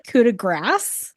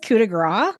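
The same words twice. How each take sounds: First: The final s sound of grace is pronounced. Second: The final s sound of grace is silent. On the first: The speaker calls it right. "These voice actors, they say it" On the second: The speaker calls it wrong. "you don't say half the letters"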